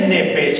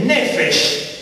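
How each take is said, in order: First: Nepech said with a hard p and ch, the mistaken way; wrong Nepech. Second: Nefesh said slowly with a clear f and sh; slow, careful Nefesh with f and sh; correct Nefesh. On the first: Teacher correcting students, mimicking the mistaken Nepech. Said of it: "no es Nepech". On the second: Teacher correcting students, slowly giving the right Nefesh. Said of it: "no es Nepech, es Nefesh". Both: Shown as a demonstration.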